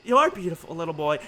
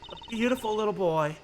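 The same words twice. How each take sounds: First: YOUR set forward firmly at the start; stress on YOUR. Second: Said in the usual way. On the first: Acted. Mother telling the president of his son, stress on YOUR. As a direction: lean on YOUR to make the point.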